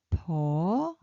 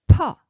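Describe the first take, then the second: First: Soft 'p' in "po", long and rising; low soft consonant. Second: "po" short, high and loud with a puff of air; burst of air. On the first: Teacher reading out the syllable chart, low soft "po". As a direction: say "po" drawn out from a low start. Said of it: "low-pitched and soft". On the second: Teacher reading out the syllable chart, explosive high "po". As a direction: blast out an aspirated "po". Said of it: "burst of air". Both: Shown as a demonstration.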